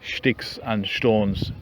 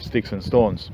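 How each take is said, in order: First: It is said in an odd, imitated way. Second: It is said in a plain, ordinary way. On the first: This mimics how the comedian talks. "a guy speaking in a weird way, saying" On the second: This is the usual way to say it. "instead of"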